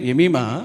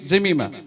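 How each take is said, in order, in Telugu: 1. ఈ పేరు y లాంటి శబ్దంతో మొదలవుతుంది. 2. ఈ పేరు j శబ్దంతో మొదలవుతుంది. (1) "తెలుగులో ఏంటి ఎమీమా" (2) "ఇంగ్లీష్లో ఏంటి జమీమా"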